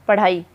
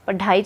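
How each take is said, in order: First: The middle consonant is a quick flap. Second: The middle consonant is a plain stop. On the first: The speaker calls it right. "तो ये उत्सिप्त" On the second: The speaker calls it wrong. "पढ़ाई तो नहीं बोलते ना हम"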